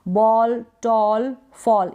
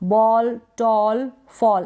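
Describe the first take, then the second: First: The vowel is said as an open 'aw' sound. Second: The vowel is said as an open 'aw' sound.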